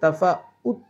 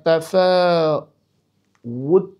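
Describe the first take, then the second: First: The final t is cut off with a glottal catch. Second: The final t is released with audible breath. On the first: The speaker calls it wrong. "তাফাউত বলা যাবে না, তাহলে কিন্তু হামজা হয়ে যাবে" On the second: The speaker calls it right. "বাতাস বের করে পড়তে হয়"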